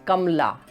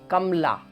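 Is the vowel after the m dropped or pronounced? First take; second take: dropped; dropped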